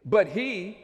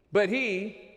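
Both takes have the same delivery.

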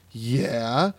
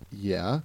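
First: Drawn-out, rising imitated yeah; growing excitement. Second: Said in the usual way. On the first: Dave hearing Cedarville named, imitated growing excitement. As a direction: imitate a guy perking up with recognition. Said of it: "he gets all excited". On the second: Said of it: "And he gets all excited".

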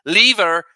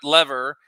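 First: "lever" as LEE-ver, punched louder; brother-in-law's mispronunciation. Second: Said in the usual way. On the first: Retold or imitated. Imitating brother-in-law's way of talking, "lever" as LEE-ver. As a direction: hit "lever" with a long ee. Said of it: "mispronounce ... the way he does". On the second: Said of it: "not "lever".

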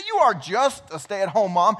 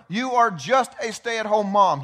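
First: Sarcastic echo. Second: Slow and loud, JUST leaned on with scorn; dismissive slow taunt, hitting each word; belittling put-down. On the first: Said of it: "But yeah". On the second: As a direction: spit out "just a stay-at-home mom" as if it were nothing. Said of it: "the number one thing the enemy wants you to think". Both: Retold or imitated.

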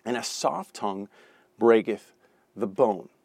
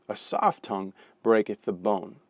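First: Soft tongue, breaketh, the bone split by pauses; phrased reading with pauses. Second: Said in the usual way. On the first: Shown as a demonstration. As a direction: lay out each phrase separately.

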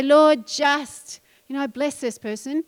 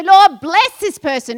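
First: Said in the usual way. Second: Loud, slow, confident prayer; bold prayer. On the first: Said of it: "Don't just say". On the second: Shown as a demonstration. Preacher showing the congregation the bold way to pray, loud and slow. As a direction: pray it out big and sure.

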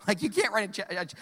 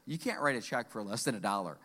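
First: Said in the usual way. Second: Stern cashier. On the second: Retold or imitated. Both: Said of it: "She says".

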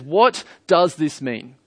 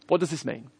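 First: "What does this mean" drawn out slowly, word by word; puzzled crowd. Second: "What does this mean" dropped much softer and quicker; puzzled crowd. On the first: Crowd questioning Pentecost, "What does this mean" slow and emphatic. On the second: Crowd questioning Pentecost, "What does this mean" softly wondering. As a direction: repeat "What does this mean" as a quiet aside. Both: Retold or imitated. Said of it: "can't blame the crowd who says".

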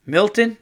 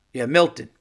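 First: Milton? rising high and a bit louder, unsure of the name; puzzled name. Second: Said in the usual way. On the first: Real, not acted. Host checking who sent the letter, rising Milton?. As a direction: read Milton? as a question while squinting at the sender. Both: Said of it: "who is this from?".

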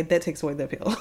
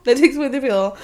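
First: Said in the usual way. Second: Laughing through the repeated line, a bit louder; repeating the friend's point with a laugh. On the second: Real, not acted. Laughing, repeating her own line to friends.

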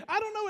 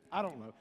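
First: "I don't know" pitched high with a shrugging lift; raised shrug. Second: "I don't know" dropped low and soft, a mumbled shrug. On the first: Answering the wife's shrug again. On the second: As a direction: throw "I don't know" away under your breath. Answering the wife's shrug. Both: Retold or imitated.

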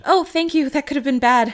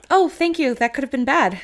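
First: Higher, louder grateful reply; bright thanks. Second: Bright thanks. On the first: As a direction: thank him brightly, a bit startled. Same line re-imagined. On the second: Imagined grateful reply, loud. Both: Pretend.

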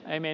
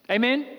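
First: Said in the usual way. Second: A bright rising question; asking amen. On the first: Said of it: "affirming answer". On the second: Real, not acted. Preacher prompting the congregation, rising question. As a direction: invite the room to answer. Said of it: "asks congregation for response".

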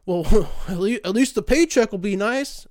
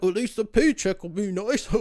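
First: Laughing mock chirpy voice; a cheery, laughing know-it-all; mocking a naive friend. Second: Lightly put-on airy mock voice; mocking a naive friend. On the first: Mocking friends who praise overtime pay, laughing and louder. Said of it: "they'll say some dumb shit like". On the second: Mocking friends who praise overtime pay, airy put-on voice. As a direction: parrot the silly comfort back, dismissive.

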